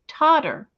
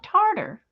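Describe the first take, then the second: First: The first syllable has no R sound. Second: The first syllable has an R sound. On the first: This is how the spelling reads. The speaker calls it right. "It's Totter" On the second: This is how locals say it. The speaker calls it wrong. "but they call it Tartar"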